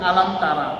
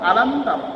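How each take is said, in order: First: The phrase ends with an open ra sound. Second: The phrase ends with a bare r sound. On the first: The speaker calls it wrong. "আমরা পড়ি আলাম তারা" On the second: The speaker calls it right. "আলাম তার কি পড়তে হবে তাহলে?"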